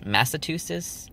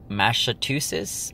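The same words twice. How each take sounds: First: "Massachusetts" with plain s sounds, no ch, pitched up in doubt; second pronunciation attempt. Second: Tentative "Massachusetts" with a sh sound in the second syllable and no ch; struggled pronunciation attempt. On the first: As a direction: say "Massachusetts" as "Mass-a-too-sis", higher and questioning. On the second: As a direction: say "Massachusetts" slowly as "Mash-a-too-sis". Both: Shown as a demonstration. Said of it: "mocking me how I pronounce it".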